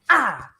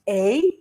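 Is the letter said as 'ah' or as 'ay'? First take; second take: ah; ay. First: The letter is said as a short 'ah' sound. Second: The letter is said as its name, 'ay'. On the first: This is the sound the letter makes in words. "and they have their letter sounds" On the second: This is what the letter is called. "They have their letter names"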